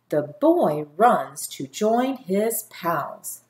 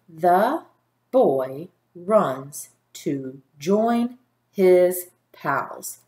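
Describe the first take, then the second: First: It is read smoothly like natural talking. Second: Each word is read separately with pauses.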